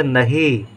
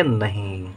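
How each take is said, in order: First: नहीं said as "na-hee" with no nasal; नहीं without its nasal ending. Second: नहीं with a nasalised final "ee"; नहीं as "na-heen", nasal and drawn out; nasal ending. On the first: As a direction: keep the final vowel of नहीं purely oral. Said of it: "हम पढ़ेंगे नहीं". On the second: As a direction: send the end of नहीं through the nose. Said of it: "अब हम इसके साथ अनुसार बिंदु लिख देंगे". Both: Shown as a demonstration.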